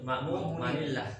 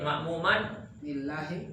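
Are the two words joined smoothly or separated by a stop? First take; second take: joined; separated. First: The words run together with a linking n. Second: There is a stop between the two words. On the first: "Kalau pengen disambung" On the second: "Kalau pengen berhenti"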